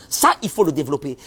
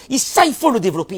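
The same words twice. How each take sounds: First: Said in the usual way. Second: «Et ça, il faut le développer», plus haut et plus fort sur «ça»; martèle «ça» pour insister; insistance. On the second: Shown as a demonstration. (répétition appuyée, «ça» lancé haut et fort) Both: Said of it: "répète pour insister".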